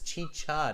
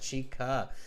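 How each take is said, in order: First: The middle consonant is a ch sound. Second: The middle consonant is a k sound. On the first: The speaker calls it right. "It is chicha" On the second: The speaker calls it wrong. "not chica"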